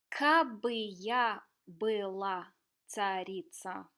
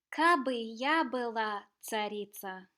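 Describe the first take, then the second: First: It is read slowly. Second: It is read fast.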